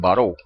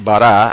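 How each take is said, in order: First: The word ends in an 'o' vowel. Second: The word ends in an 'a' vowel. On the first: "algunos lo, lo pronuncian baró" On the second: "en hebreo dice bará"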